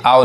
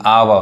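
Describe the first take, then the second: First: आव as one closed "ow" syllable; wrong single sound. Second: आवा as "aa-wuh", two syllables; correct two-part sound. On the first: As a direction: say आव short, without a final vowel. (आव, एक ही ध्वनि में) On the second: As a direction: say आवा, opening into a final vowel. (आवा, दो हिस्सों में) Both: Shown as a demonstration. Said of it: "ये आव नहीं".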